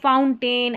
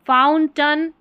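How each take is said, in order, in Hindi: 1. अंतिम अक्षर में पूरा 'ay' स्वर है। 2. अंतिम अक्षर में हल्का 'uh' स्वर है। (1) "फाउंटेन ऐसे भी पढ़ देते हैं" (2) "ए आई का उच्चारण अ भी होता है"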